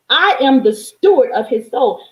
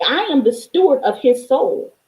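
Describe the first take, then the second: First: Same words pushed louder, with conviction; louder repeat. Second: Said in the usual way. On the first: Shown as a demonstration. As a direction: say it again, stronger. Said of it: "repeated declaration, louder". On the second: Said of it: "repeated declaration".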